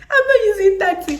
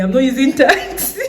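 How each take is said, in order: First: Much higher, louder, stressing not; emphatic repeat. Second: Louder, higher, firmly refusing; firm refusal. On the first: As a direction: repeat it with a laughing punch on not. Repeats the refusal more emphatically. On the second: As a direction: tell the driver no. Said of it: "I told the taxi man". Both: Retold or imitated.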